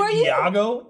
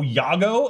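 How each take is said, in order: First: The name begins with a separate ee vowel. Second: The name begins with a y sound. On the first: "as opposed to" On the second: "Like Y-A-G-O"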